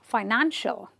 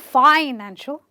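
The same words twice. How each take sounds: First: The stress is on the second syllable. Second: The stress is not on the second syllable. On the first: The speaker calls it right. "I will stress on the syllable before it and say financial" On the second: The speaker calls it wrong. "I won't say financial"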